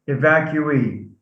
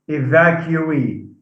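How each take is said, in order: The two takes are said the same way.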